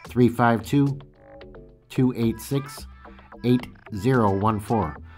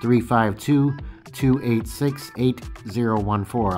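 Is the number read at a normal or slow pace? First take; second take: slow; normal. First: The number is read at a slow pace. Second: The number is read at a normal pace.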